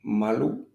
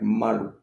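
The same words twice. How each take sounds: First: The stress is on the first syllable. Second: The stress is on the first syllable.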